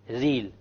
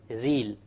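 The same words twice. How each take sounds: No difference in how they are said.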